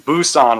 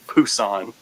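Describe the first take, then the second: First: The word begins with a B sound. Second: The word begins with a P-like sound. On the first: This follows the English spelling. "it's Busan with a B" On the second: This is how Koreans say it. "how you say it in Korean is it's like a P"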